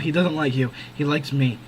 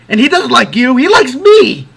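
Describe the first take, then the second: First: It sounds matter-of-fact and impersonal, like Stevie. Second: It sounds gloating and self-indulgent, like Casey.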